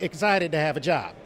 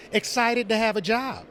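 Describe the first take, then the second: First: Said in the usual way. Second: Cyborg voice. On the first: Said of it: "it's just my voice". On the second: Shown as a demonstration. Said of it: "Can you give us a Cyborg voice?".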